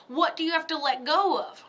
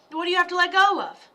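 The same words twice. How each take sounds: First: Said in the usual way. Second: Pressing the question again, louder and faster; louder insistent repeat. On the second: Real, not acted. Psychic urging the viewer to let go, louder and faster. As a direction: push the question home.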